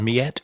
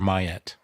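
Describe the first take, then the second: First: The first syllable sounds like 'me'. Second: The first syllable sounds like 'my'. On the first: This follows the French word. "I've always pronounced it Miette" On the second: This is how it was said locally long ago. "Could be the Alberta pronunciation, Mayette"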